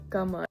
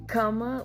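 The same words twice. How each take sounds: First: The K is soft, close to a G. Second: The K is hard and sharp. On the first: The speaker calls it right. "It's a kama. It's more soft" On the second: The speaker calls it wrong. "It's not kama, like it's not a hard, sharp K"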